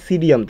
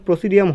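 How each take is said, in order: First: The word begins directly with an s sound. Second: The word begins with an audible p sound. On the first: The speaker calls it right. "Actually উচ্চারণটা হয় সিডিয়াম থেকে" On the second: The speaker calls it wrong. "Actually উচ্চারণটা ঠিক প্রসিডিয়াম হয় না"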